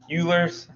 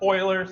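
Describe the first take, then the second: First: The name does not sound like oiler. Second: The name sounds like the word oiler. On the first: "that's what everyone always says" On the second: "like a can of Euler"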